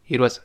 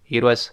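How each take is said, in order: The two takes are said the same way.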